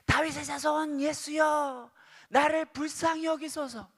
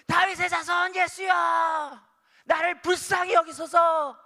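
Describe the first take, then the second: First: It is said at normal volume. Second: It is said in a louder voice.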